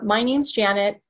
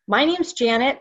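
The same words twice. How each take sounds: First: The voice sounds flat and unenthusiastic. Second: The voice sounds confident and enthusiastic. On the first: The speaker calls it wrong. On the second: The speaker calls it right.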